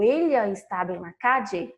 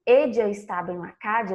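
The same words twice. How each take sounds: First: "ella" said "elya", Portuguese lh sound. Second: "ella" and "calle" both with dj, "edja ... cadje". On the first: Teacher contrasts the lh version for students. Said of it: "com som de L H". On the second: Teacher shows students consistent ll, using dj. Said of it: "Eu pronunciei com som de D J". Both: Shown as a demonstration.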